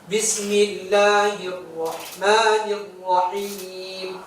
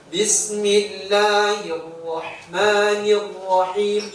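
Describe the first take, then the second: The two takes are said the same way.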